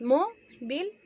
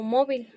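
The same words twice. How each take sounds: First: "móvil" split slowly, MÓ held, then vil; stressed syllable shown. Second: Said in the usual way. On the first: Shown as a demonstration. Teacher showing students where the accent falls, "móvil" in stressed syllables. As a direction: break "móvil" after a stressed MÓ. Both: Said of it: "recae el acento en la segunda sílaba tónica".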